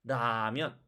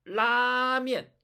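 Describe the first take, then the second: First: 라면 lower, starting on a weak tap; relaxed Korean flap on 라면; 라면 with no held L; light Korean R. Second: 라면 high, loud and slow with a held L; drawn-out Chinese lāmiàn for 라면; forceful Chinese L. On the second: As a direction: push hard into the L of 라면. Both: Shown as a demonstration. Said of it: "시작하는 힘이 다르죠".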